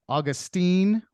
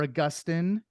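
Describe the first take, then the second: First: Put-on Augustine said AW-gus-teen, stress on the first syllable; Augustine rhyming at the end with "seen". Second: Augustine said uh-GUS-tin, stress on the middle syllable. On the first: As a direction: say Augustine with a long "teen" ending. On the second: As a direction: say Augustine with a short "tin" ending. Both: Shown as a demonstration. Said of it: "he's also been pronounced".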